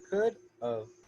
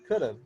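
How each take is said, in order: First: The two words are said slowly and separately. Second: The two words are said fast and blended.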